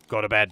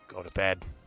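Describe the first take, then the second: First: It is yelled loudly. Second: It is said at normal, softer volume.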